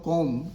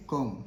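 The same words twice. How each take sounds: First: 'com' with the final b wrongly pronounced; B sounded at the end. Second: 'com' ending cleanly on m; silent B. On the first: Teacher shows learners the mistake, B sounded. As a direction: say 'com' voicing a b after the m. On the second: Teacher models for learners, silent B. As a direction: say 'com' with no b sound after the m. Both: Shown as a demonstration. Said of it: "Here B is silent".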